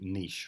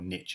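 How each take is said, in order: First: The word is said the non-American way. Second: The word is said the American way. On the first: "as most people would call it" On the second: "if you're American"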